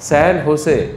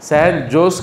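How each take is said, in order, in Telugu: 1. రెండవ పదం h శబ్దంతో మొదలవుతుంది. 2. రెండవ పదం j శబ్దంతో మొదలవుతుంది. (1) "జే సైలెంట్ అన్నాడు ఆయన" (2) "శాన్ జోస్ కాదు"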